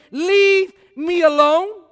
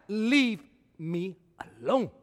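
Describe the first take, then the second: First: Loud, high, slow Leave me alone with a rising tune; emphatic repeat. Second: Sulky take. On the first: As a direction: hammer each word in disbelief. Preacher repeats it mockingly. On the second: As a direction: drop it into a sulky grumble. Quieter, sulky take of same words. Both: Acted.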